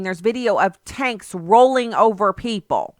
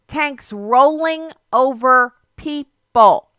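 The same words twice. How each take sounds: First: Said in the usual way. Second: "Tanks rolling over people" said higher, louder and very slowly; emphatic slow repeat. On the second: Real, not acted. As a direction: let each word land with weight.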